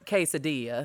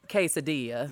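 First: The word is pronounced with a country American accent. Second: The word is pronounced with a country American accent.

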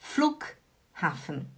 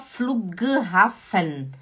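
First: The consonant after Flu- is a voiceless k. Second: The consonant after Flu- is a voiced g. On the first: The speaker calls it right. "Você fala como se tivesse um K" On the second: The speaker calls it wrong. "você não fala Flughafen. Tem um G"

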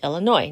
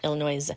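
First: The final s is silent. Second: The final s is sounded. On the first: The speaker calls it right. "it's Illinois" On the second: The speaker calls it wrong. "I did have that S on there"

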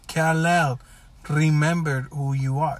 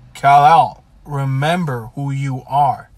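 First: It is said calmly and flatly. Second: It is said with urgency and intensity.

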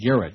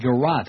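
First: The word sounds like the name Garrett. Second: The word does not sound like Garrett. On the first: This is how the speaker always said it. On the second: This is how other people say it.

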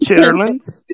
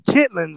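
First: The word is said with its full middle syllable. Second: The word is said short, middle syllable dropped. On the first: The speaker calls it wrong. "that's not how you pronounce it" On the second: The speaker calls it right.

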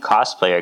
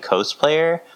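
First: The first syllable sounds like 'costume'. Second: The first syllable does not sound like 'costume'. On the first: The speaker calls it right. "I think it should be cosplayer, because it's like costume" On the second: The speaker calls it wrong. "some people say cosplayer"

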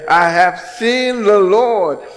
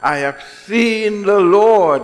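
First: It is said excitedly, as Mary would. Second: It is said flatly, as plain reading.

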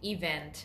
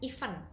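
First: The word does not sound like 'even'. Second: The word sounds like 'even'. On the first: The speaker calls it right. "pronunciation-nya adalah event" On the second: The speaker calls it wrong. "Padahal kalau event itu artinya beda lagi"

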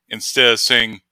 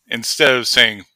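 No difference in how they are said.

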